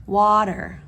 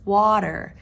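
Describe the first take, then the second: First: The middle consonant sounds like a D. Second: The same.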